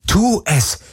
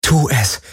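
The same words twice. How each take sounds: First: High, urgent inner cry; inner scream. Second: Raised pitch, contained self-command; silently will yourself to act; urgent inner voice. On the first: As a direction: scream at yourself to act. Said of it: "schrie alles in ihr". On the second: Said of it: "dachte sie". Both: A narrator's reading.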